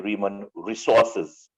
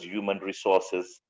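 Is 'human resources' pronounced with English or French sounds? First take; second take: French; English. First: It is pronounced with French sounds. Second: It is pronounced with English sounds. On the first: The speaker calls it wrong. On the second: The speaker calls it right.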